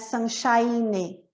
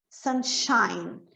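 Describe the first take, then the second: First: The word ends with an added vowel after n. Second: The word ends cleanly on the n sound. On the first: The speaker calls it wrong. "não é sunshine" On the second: The speaker calls it right. "Sunshine termina em N"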